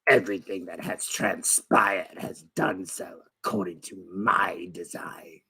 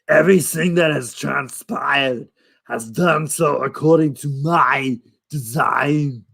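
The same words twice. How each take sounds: First: It is said in a raspy, sinister old voice. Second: It is said in a heavy Austrian-style accent.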